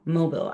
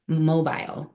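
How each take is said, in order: First: "mobile" ending like "bill" or "bull"; short-ending mobile. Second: "mobile" ending like "mile"; long-i mobile. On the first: Trainer second-guessing the word before the class, "mobile" said MOH-bill. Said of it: "I say mobile". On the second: Trainer showing a hanging mobile to the class, "mobile" said MOH-byle. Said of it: "if it's mobile or mobile". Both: Shown as a demonstration.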